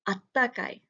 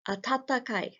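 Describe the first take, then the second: First: The 'ta' syllables merge into one held consonant. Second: Both 'ta' syllables are pronounced separately. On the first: "it often gets kind of smushed together" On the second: "has two tas right next to it"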